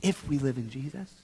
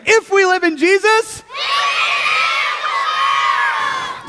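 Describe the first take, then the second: First: Very soft, low and hushed; as soft as possible. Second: High, full-voiced rallying call; as loud as possible. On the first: Leader cues children's soft response, very hushed. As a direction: drop right down to a hush. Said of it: "As soft as you can". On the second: Leader cues children's loudest response, high loud call. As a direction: belt it out to fire up the group. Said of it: "As loud as you can". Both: Shown as a demonstration.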